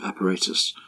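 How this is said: The word is said with a non-American accent. "as we would say here"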